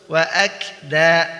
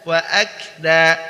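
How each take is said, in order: The two takes are said the same way.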